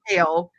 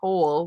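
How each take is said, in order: First: The name sounds like the word kale. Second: The name sounds like the word Cole. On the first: The speaker calls it right. "His name is Kale" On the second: The speaker calls it wrong. "I was about to say Cole"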